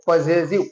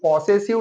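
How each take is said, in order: First: The first vowel is a short 'uh'. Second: The first vowel is a long 'aw'. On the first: The speaker calls it right. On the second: The speaker calls it wrong.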